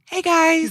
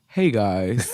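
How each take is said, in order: First: The voice is high-pitched and squeaky. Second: The voice is at a normal, unsqueaky pitch. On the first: The speaker calls it right. "Can you squeak a little bit more?" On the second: The speaker calls it wrong. "that didn't sound anything like him"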